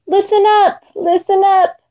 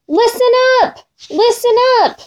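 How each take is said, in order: First: Lightly voiced small, babyish whimper, pitched high; hurt Lion pleading like a little baby. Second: Lion's proud roar, pitched high. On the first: Hurt Lion whimpering for help, babyish. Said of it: "In a little baby voice he whispered". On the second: Lion boasting to all animals, roaring proudly. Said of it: "raised his head and roared". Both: A narrator's reading.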